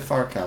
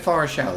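First: The consonant after 'Far' is a k sound. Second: The consonant after 'Far' is an sh sound. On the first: This is how someone else says it. "never said Farkel" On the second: This is how the speaker has always said it. "I've always said Farshell in my head"

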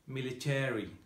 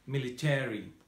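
First: It is said with an American accent. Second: It is said with an American accent.

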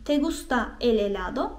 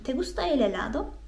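First: It is said flat, like a plain statement. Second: It is said with questioning intonation. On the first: It states that the listener likes ice cream. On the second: It asks whether the listener likes ice cream.

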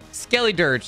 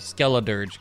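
First: The second syllable ends in an 'ee' sound. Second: The second syllable ends in an 'uh' sound. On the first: The speaker calls it wrong. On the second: The speaker calls it right. "It's Skella"

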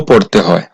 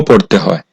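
No difference in how they are said.

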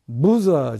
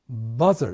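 First: The first vowel sounds like 'oo'. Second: The first vowel sounds like 'uh'. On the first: The speaker calls it wrong. "ブザーじゃなくて" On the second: The speaker calls it right. "バザーです。"

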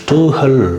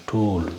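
First: An h sound follows the vowel. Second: The vowel is simply held long. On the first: The speaker calls it wrong. "ஸ்டூஹல் அப்படின்னு சொல்ல தேவையில்லை" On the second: The speaker calls it right. "கொஞ்சம் நெடில் மாதிரி கொஞ்சம் இழுத்து சொல்லணும்"

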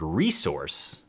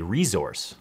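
First: The s in the middle sounds like s. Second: The s in the middle sounds like z. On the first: This is the speaker's usual pronunciation. "that's how I would say it" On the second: This is how it is said in Canada. "in Canada, they say resource"

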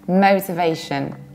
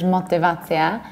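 First: It is said with rounded English-style vowels. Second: It is said with Polish-style vowels. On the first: The speaker calls it right. "You need to round it" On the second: The speaker calls it wrong. "like in Polish motywacja"

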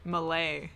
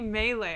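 First: It is said like the language name Malay. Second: It is not said like the language name Malay. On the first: The speaker calls it wrong. "I always pronounced it as, whatchamacallit? Malay. And that's the language in Malaysia and not how you pronounce melee" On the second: The speaker calls it right. "it's actually melee"

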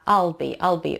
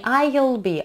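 First: I'll is unstressed and its vowel is weakened. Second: I'll is said fully, with a clear stressed vowel. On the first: The speaker calls it right. "а I'll be, потому что он без ударения, и вот этот теряется" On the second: The speaker calls it wrong. "не I'll be"

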